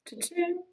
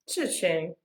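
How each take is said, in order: First: It is said imitating a cash register sound. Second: It is said in a plain voice.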